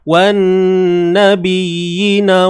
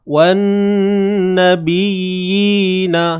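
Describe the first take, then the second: First: The long vowel in the word is dropped. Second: The long vowel in the word is held. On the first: The speaker calls it wrong. "jangan ... kesalahan nyata sebab kita buang huruf" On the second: The speaker calls it right. "bunyinya sama aja"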